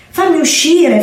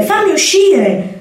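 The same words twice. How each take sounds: First: High, frantic kitten cry, trapped in the dark; a tiny trapped kitten begging to be let out; desperate kitten. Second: Even higher and slow, drawn-out kitten wail; trapped kitten wailing, begging to be let out; desperate kitten. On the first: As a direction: kitten crying from inside the bird's pouch. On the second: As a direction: stretch the plea out, pleading harder. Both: Acted. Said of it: "miagolò disperato".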